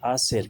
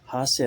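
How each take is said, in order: First: The word begins directly with a vowel sound. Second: The word begins with an audible h sound. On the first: The speaker calls it right. "बल्कि आसिर कहेंगे" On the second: The speaker calls it wrong. "हासिर नहीं पढ़ेंगे"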